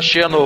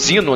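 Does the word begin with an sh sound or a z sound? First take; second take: sh; z. First: The word begins with an sh sound. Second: The word begins with a z sound. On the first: This is how Brazilians say it. "a gente fala Xeno" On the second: This is how people abroad say it. "eles lá falam Zino"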